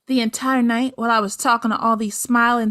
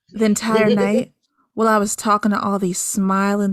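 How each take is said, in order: First: The voice is plain, an ordinary reading voice. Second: The voice is low and sultry, seductive.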